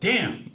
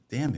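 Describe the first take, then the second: First: The word is said loudly and forcefully. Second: The word is said quietly and gently. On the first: The speaker was openly shocked. "like like that" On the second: The speaker claims it was harmless. "Nice and soft"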